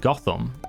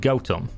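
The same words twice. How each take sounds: First: The first syllable sounds like 'goth'. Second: The first syllable sounds like 'goat'.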